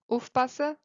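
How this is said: It is said in a Swabian dialect accent. "In Schwäbisch"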